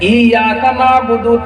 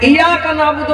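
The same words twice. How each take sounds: First: The 'y' sound is doubled and held. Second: The 'y' sound is single and short. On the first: We worship only you. The speaker calls it right. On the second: We worship you too, and others as well. The speaker calls it wrong.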